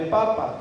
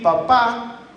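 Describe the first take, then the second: First: The stress is on the first syllable. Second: The stress is on the last syllable. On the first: It means potato. "no tener ningún acento" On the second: It means father. "con el acento en la última A"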